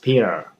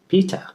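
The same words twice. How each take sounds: First: The middle T is softened, almost missing. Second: The middle T is pronounced clearly. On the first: This is how it is said in the USA. "So the T, the T is not there" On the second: This is how it is said back home in Africa. "that's how we used to say here uh, back uh, back uh, back at home"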